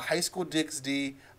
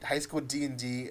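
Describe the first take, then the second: First: The middle letter is read aloud as ex. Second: The middle letter is read aloud as and. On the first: The speaker calls it wrong. "or sorry" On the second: The speaker calls it right. "you don't pronounce the X"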